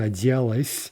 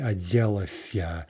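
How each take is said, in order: First: The verb ends in a short '-s' sound. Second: The verb ends in a full '-sya' syllable. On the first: This is the everyday modern form. "a form that would normally be отделась, at least in, in modern Russian" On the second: This sounds poetic and archaic. "recover an extra syllable by using the syllabic version"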